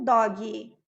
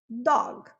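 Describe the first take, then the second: First: An extra vowel sound is added after the g. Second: The word ends cleanly on the g sound. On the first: The speaker calls it wrong. "não dog" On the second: The speaker calls it right. "eu não preciso falar gui"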